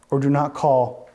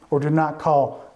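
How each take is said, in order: Both takes have the same delivery.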